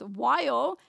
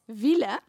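First: The word is said with English pronunciation. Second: The word is said with a Dutch-style pronunciation. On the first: "we had a kid that pronounced while as" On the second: "pronounced while as wille"

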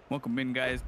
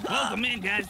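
First: It is said in a smooth, suave voice. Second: It is said in a robotic text-to-speech voice. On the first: "I could do a super suave voice as well" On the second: "AI voice"

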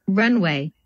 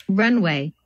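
Both takes have the same delivery.

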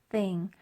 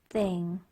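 Both takes have the same delivery.

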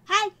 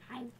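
First: It is said loudly. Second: It is said quietly.

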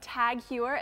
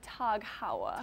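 First: The name is pronounced the English way. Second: The name is pronounced the German way. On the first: This is the common mistaken pronunciation. The speaker calls it wrong. "for all of you guys that thought it was" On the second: This is the actual pronunciation. The speaker calls it right. "it's actually Tag Heuer. Just so you know, it's German"

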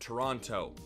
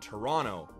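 First: The second T sound is clearly pronounced. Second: The second T sound is dropped. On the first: The speaker is not from Canada. The speaker calls it wrong. "If you hear someone say that, you can tell that they're not from Canada" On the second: The speaker is from Canada. The speaker calls it right. "Canadians drop the extra T at the end of Toronto"

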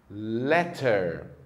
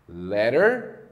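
First: The middle T is a clear T sound. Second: The middle T sounds like a quick flap. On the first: "a letra T tem sempre o som de T" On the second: "a letra T geralmente é pronunciada com o som do nosso R"

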